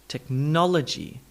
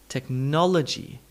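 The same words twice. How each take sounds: Both takes have the same delivery.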